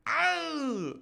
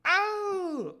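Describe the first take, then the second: First: High falsetto yelp; echoed cry. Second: Higher and louder falsetto yelp; echoing cry, louder. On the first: Reader voicing the wounded man's cry, high falsetto yelp. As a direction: yelp like the fallen man. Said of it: "the cry he gave was echoed". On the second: Companions echoing the wounded man's cry, louder yelp. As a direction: echo the cry, bigger. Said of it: "not only by his companions". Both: Acted.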